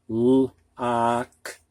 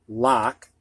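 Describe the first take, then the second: First: "Lock" with the vowel stretched long, ah; slow, drawn-out "Lock" to model the vowel; stretched o sound. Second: Said in the usual way. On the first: Shown as a demonstration. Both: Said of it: "the Midwestern pronunciation of these words".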